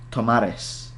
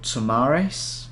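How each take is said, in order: First: The name is said with a Spanish accent. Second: The name is said with an English accent.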